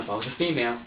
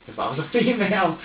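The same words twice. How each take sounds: First: Said in the usual way. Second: "female" pushed high and loud with a laugh; louder, higher repeat, laughing on "female"; stress on female. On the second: Real, not acted. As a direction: punch the word "female", voice jumping up.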